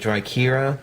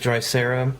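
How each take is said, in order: First: The middle consonant is a K sound. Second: The middle consonant is an S sound. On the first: This is how the makers say it. "they pronounce it Drykera. So the C acts like a K" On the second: This is how the spelling reads. "I know it says Drysera"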